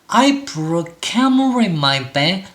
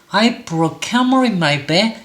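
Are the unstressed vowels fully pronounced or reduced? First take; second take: reduced; reduced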